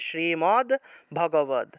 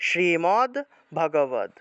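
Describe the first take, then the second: First: The d sounds are bare consonants. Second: The d sounds are bare consonants.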